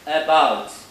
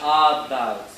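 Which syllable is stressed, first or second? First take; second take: second; first. First: The stress is on the second syllable. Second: The stress is on the first syllable. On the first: The speaker calls it right. "you have to put the stress on the bout" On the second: The speaker calls it wrong. "not as about"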